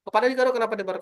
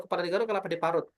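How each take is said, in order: First: Said in the usual way. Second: "Kepala digaruk, kelapa diparut" rattled off fast; fast tongue twister. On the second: Shown as a demonstration. Host demos the top level of the drill, fast. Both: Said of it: "Sampai di level terakhir".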